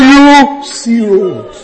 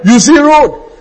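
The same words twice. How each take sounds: First: "you see road" drawn out very slowly, each word weighted; slow, deliberate preacher's emphasis on "you see road"; slow emphatic. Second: Said in the usual way. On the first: Shown as a demonstration. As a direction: lay it down word by word for the congregation. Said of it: "So when you are crying". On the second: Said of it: "Did you hear what I'm saying?".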